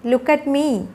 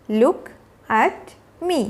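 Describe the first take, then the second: First: Said in the usual way. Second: Slow, with a pause between words. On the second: Shown as a demonstration. Teacher modelling a call for a child's attention, word by word. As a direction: set "Look", "at" and "me" apart.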